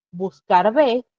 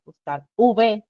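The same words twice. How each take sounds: First: Said in the usual way. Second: "buscar V" said slowly and deliberately, the letter V clear; slow spelled-out. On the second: Shown as a demonstration. ("buscar V" despacio y marcado, como dictando) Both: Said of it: "fíjense, buscar V".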